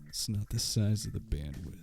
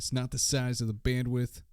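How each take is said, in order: First: It is said softly in a low voice. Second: It is said loudly in a normal voice. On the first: "if I was whispering too softly" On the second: "in case that wasn't loud enough"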